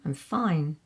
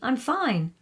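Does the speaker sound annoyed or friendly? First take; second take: annoyed; friendly. First: The voice sounds cold and displeased. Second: The voice sounds friendly and untroubled. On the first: The listener might be in trouble. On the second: The speaker really is fine.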